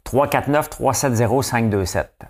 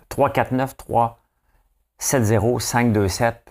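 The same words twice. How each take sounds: First: Slow, clear number dictation. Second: Very slow, split in two groups; slow grouped dictation. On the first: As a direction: read the digits slowly and clearly. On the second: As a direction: pause between the two groups. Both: Shown as a demonstration. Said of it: "regardez cette séquence de numéros-là".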